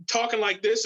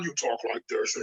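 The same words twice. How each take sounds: First: Said in the usual way. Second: "like this" dropped low and much softer; suit-on Batman voice. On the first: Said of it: "So instead of doing this". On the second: Shown as a demonstration. Showing the co-host the Batman suit voice, low and hushed. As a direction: sink into a low, hushed hero voice for "you talk like this". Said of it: "and then when he put the suit on".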